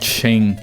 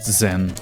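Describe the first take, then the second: First: The word begins with an sh sound. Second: The word begins with a z sound. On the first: "I call it Shane" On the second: "not Zen"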